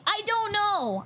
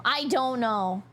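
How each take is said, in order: First: High, exasperated I don't know; pitched-up helpless bafflement. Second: Said in the usual way. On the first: Real, not acted. Exasperated answer, then settles down.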